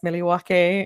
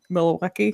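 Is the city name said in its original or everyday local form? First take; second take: original; everyday local. First: It is said in its original, less familiar form. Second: It is said in its usual everyday form. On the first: This is how it should be said. "It should be pronounced" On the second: This is how people actually say it. "and it's"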